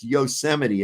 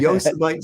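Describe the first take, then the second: First: The word is said the standard way. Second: The word is sounded out as spelled. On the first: The usual pronunciation of the name. The speaker calls it right. "It's Yosemite" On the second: A child reading the name for the first time. The speaker calls it wrong. "I was pronouncing it Yosemite Sam"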